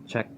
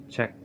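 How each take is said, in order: The two takes are said the same way.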